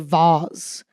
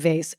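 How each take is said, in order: First: It is pronounced the way British speakers say it. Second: It is pronounced the way non-British speakers say it. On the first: The speaker calls it right. "I love the way I feel when I say vase" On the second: The speaker calls it wrong. "I'm never going to say vase. Vase feels wrong to me"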